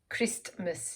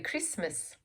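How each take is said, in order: First: The middle T is clearly pronounced. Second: The middle T is left silent. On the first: The speaker calls it wrong. "You don't say T" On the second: The speaker calls it right. "You say Christmas"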